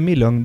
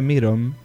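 First: The middle consonant is an L sound. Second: The middle consonant is an R sound. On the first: The speaker calls it wrong. "Hasta no dije Milon" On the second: The speaker calls it right. "dije Miron, porque ellos la L es como una R rara"

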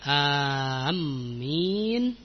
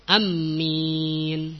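First: The first vowel is long, with a doubled m. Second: The first vowel is short, with a doubled m. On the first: "tasydidnya disertai mad" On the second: "dengan pendek"

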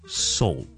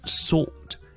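First: The vowel sounds like 'saw' before the L. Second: The vowel does not sound like 'saw'. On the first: The speaker calls it right. "but it's salt" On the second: The speaker calls it wrong. "It's not salt"

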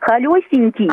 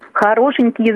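First: The word is said with lisped baby-talk sounds. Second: The word is said with clear adult sounds. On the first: The speaker calls it wrong. "А вот когда говорят «холёсенький»" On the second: The speaker calls it right. "это хорошо"

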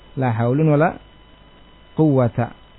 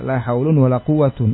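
First: The last word ends with a short 'a' sound. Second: The last word ends with an 'un' sound. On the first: The second noun is read with the accusative-like fatha ending. "atau fathah" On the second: The second noun is read in the nominative case. "Rafa' juga"

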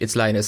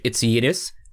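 First: The name is said the English way. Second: The name is said the Swedish way.

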